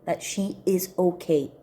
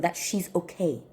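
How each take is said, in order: First: "is" given full weight, uncontracted; stress on IS. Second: Said in the usual way. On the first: Real, not acted. Aunt affirming the niece is okay, stressing "is". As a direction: lean firmly on "is".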